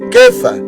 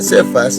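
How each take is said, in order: First: The name begins with a K sound. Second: The name begins with an S sound. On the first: This is the Hebrew form of the name. "En hebreo, Kefa, y empieza con K" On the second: This is the Spanish form of the name. "para nosotros, hermanitos, así se pronuncia Cefas"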